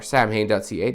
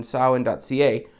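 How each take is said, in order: First: Samhain read as spelt, "SAM-hayn"; alternative spelled-out pronunciation. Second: Samhain pronounced "SAH-wen", with silent mh; technically correct pronunciation. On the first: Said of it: "depending on how you want to say it". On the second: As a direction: say Samhain as SOW-en. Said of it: "Samhain is technically correct". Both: Shown as a demonstration.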